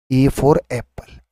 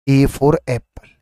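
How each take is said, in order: First: A for Apple said slowly, each word apart; teacher drawing out A for Apple for the class; slow, spelled out. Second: Said in the usual way. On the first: Shown as a demonstration. Slow teaching read.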